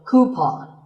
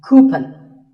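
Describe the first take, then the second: First: The second syllable sounds like pawn. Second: The second syllable does not sound like pawn. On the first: The speaker calls it right. "the second syllable should be pawn" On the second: The speaker calls it wrong. "A common incorrect pronunciation"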